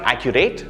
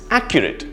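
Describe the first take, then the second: First: The final syllable is a full 'rate' sound. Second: The first syllable is stressed; the ending is weak. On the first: The speaker calls it wrong. "It's not accurate" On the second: The speaker calls it right. "Three syllables with the stress in the first syllable"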